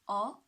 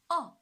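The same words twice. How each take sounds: First: The pitch rises from mid to high. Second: The pitch falls sharply from high to low. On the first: "the second tone, right, from three to five" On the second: "the fourth tone. From five to one"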